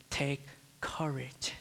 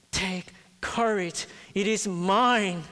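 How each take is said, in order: First: Slow hushed whisper, no voice; whispered comfort. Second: Slow, higher and louder, building to a strong close; rising proclamation. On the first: Christ speaking softly to a fearful heart, slow whisper. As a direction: whisper it slowly like a secret comfort. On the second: Preacher voicing Christ to the congregation, slow building proclamation. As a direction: proclaim it, growing bigger on each word. Christ's promise voiced with force. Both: Acted.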